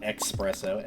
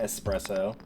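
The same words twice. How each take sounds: First: It is said with a ks sound, like expresso. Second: It is said with a plain s sound. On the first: The speaker calls it wrong. "and not espresso" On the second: The speaker calls it right. "There's no X in this word anywhere"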